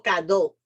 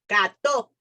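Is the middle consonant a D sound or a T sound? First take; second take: D; T. First: The middle consonant is a soft D sound. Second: The middle consonant is a crisp T sound. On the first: The speaker calls it wrong. "No cado" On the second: The speaker calls it right. "It's T, with T, not with D"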